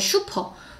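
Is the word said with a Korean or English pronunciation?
Korean. It is said with a Korean loanword pronunciation. The speaker calls it wrong.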